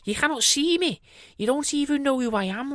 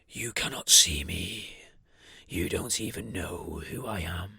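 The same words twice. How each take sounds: First: It is said in a nicer, friendly voice. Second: It is said in a sinister, menacing voice. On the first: "in a nicer voice" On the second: "in that such of a sinister voice"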